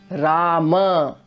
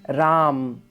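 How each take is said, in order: First: The word ends with a short final vowel. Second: The word ends on the consonant m. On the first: The speaker calls it right. "Rama actually is an a ending" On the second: The speaker calls it wrong. "We by mistake make it a halant ending word"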